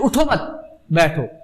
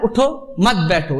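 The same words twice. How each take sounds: First: There is a pause after 'mat'. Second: There is a pause after 'utho'.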